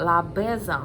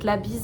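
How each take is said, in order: First: It is said in a mock American accent. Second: It is said in a plain French accent.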